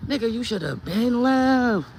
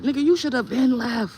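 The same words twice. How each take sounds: First: Slow, loud drawn-out scold; slower drawn scold. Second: High, loud emphatic scold. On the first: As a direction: stretch every word, hammer "left". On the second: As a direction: throw it at him hard. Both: Real, not acted. Scolding husband, repeated line.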